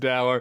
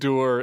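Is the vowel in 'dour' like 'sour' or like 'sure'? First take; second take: sour; sure. First: The vowel sounds like the one in 'sour'. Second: The vowel sounds like the one in 'sure'. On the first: This is how it is said on Long Island. The speaker calls it wrong. "maybe in Long Island it's Dower" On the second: This is the reportedly correct pronunciation. The speaker calls it right. "apparently it's Dur is the correct pronunciation"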